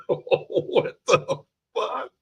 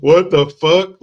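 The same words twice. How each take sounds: First: High, slow, drawn-out what the fuck; stunned disbelief. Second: Loud yelled what the fuck; outraged shout. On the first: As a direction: stretch it out in shocked disbelief, way up high. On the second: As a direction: blast it out in outrage. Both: Retold or imitated. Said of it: "I'm just like".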